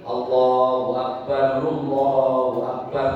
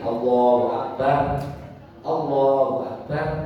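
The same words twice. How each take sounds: First: Fast, with a vowel linking akbar onward. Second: Each phrase ends with a clear pause. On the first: "Kalau cepat begini ... Akbarnya nggak boleh dimatiin di doma" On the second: "Kalau bacanya putus-putus wakof, boleh begini"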